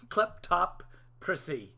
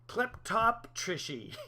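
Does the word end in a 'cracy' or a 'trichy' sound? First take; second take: cracy; trichy. First: The word ends with a clear 'cracy' sound. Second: The word ends with a garbled 'trichy' sound.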